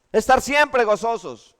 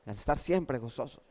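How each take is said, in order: First: Louder, higher and slow, stress on estar; slow emphatic repeat. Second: Said in the usual way. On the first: Shown as a demonstration. Preacher repeats the motto to the congregation, slow and emphatic. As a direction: hammer home "Estar siempre gozosos" slowly.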